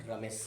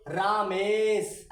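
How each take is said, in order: First: रमेश softly, short light र, lower and quieter; रमेश, soft and light, the र kept short; read gently. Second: रामेश, very slow, louder, the रा held long and heavy; रामेश read loud and very slow with a long रा. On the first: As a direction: say रमेश lovingly with a quick short र. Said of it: "प्यार से पढ़ेंगे". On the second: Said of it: "ऐसे पढ़ेंगे". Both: Shown as a demonstration.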